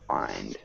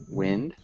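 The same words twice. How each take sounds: First: "wind" with a long i, rhyming with find; low, soft "wind" with an "eye" vowel; pronounced with long i. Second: "wind" with a short i, as in windy; "wind" as in moving air, short vowel; pronounced with short i. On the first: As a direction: say "wind" as in winding a clock. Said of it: "the other one is pronounced". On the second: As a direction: say "wind" to rhyme with pinned. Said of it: "One is pronounced". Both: Shown as a demonstration.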